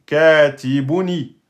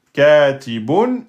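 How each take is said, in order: First: Katibuni slow, final i clearly added. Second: Katibun drawn out, ending on n; slow base form. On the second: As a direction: hold katibun before adding the vowel. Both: Shown as a demonstration. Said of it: "et vous rajoutez i".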